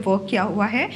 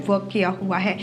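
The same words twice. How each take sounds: The two takes are said the same way.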